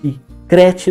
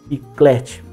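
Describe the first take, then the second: First: The consonant after k is an R sound. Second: The consonant after k is an L sound. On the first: This is an easier, non-standard form. The speaker calls it wrong. "É muito mais fácil falar" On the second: This is the standard form, harder to articulate. The speaker calls it right. "do que"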